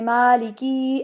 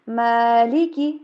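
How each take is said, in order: First: The final vowel is drawn out long. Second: The final vowel is kept short. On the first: The speaker calls it wrong. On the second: The speaker calls it right.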